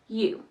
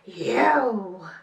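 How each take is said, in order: First: It is said in an ordinary speaking voice. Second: It is roared out like a lion. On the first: "Say you in your normal voice" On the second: "say you like you are a lion"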